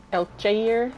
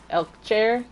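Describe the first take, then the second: First: "Elkjaer" stretched to "el-ZHAY-eer", rising like a question; tentative "Elkjaer" as "el-ZHAY-eer?", louder and higher; second-guess pronunciation. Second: "Elkjaer" said as "elk-SHAIR", rising like a question; tentative "Elkjaer" as "el-SHAIR?", louder and higher; unsure pronunciation. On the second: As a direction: try "Elkjaer" with a sh sound, ending "air", pitched up. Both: Shown as a demonstration. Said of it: "I don't know how his name is pronounced".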